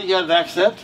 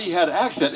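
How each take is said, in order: First: "he had an accent?" asked, with the pitch rising on "had"; question rise. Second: "he had an accent" said as a flat statement, falling at the end. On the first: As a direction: turn it into a wondering question, up on "had". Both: Shown as a demonstration.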